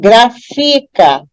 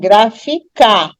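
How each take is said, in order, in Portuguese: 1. A tônica está na segunda sílaba. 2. A tônica está na última sílaba. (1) "Se eu der ênfase na penúltima sílaba" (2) "Se eu der ênfase na última sílaba"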